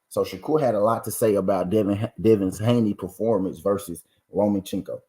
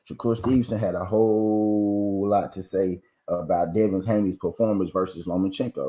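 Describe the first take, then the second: First: It is said at a quick pace. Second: It is said at a slow pace.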